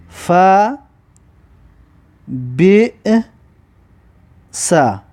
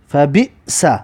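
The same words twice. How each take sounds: First: "فا", "بی", "سا" each alone, long pauses between; syllable-by-syllable dictation. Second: "فا بی سا" put together, short break before "سا"; syllables joined up. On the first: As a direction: dictate it one drawn-out syllable at a time. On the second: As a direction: read the syllables back as one word. (خواندن هجاها به هم پیوسته) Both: Shown as a demonstration. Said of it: "بنویسید به این طریق که".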